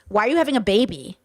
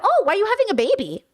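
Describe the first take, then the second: First: It sounds like a judgmental question. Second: It sounds like a genuinely curious question.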